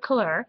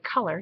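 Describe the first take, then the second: First: It is said like French couleur, stressing the end. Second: It is said like English color, stressing the start. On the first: This is how the brand says it. "as they pronounce it" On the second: This is how the speaker says it at home. "I say color here in Canada"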